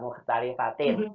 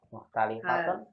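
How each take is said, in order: First: The word ends with an 'in' sound. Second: The word ends with an 'un' sound. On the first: The speaker calls it right. "Itu dia" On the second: The speaker calls it wrong.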